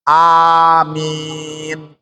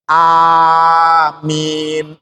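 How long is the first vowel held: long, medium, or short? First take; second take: short; medium. First: The first vowel is held for two counts. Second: The first vowel is held for four counts.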